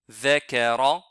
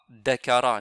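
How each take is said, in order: First: The word begins with a soft th sound. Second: The word begins with a hard d sound. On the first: The speaker calls it right. "c'est the, the, zakara" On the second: The speaker calls it wrong. "on ne lit pas dakara"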